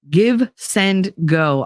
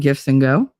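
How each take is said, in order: First: Each word is said separately as 'give send go'. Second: The name blurs into 'gifts and go'. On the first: The speaker calls it right. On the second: The speaker calls it wrong.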